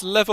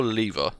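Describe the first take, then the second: First: "lever" with a short e, LEV-er; short-e pronunciation. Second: "lever" with a long ee, LEE-ver; long-ee pronunciation. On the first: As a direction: say "lever" to rhyme with "never". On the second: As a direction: say "lever" to rhyme with "beaver". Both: Shown as a demonstration. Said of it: "Is it pronounced lever or lever?".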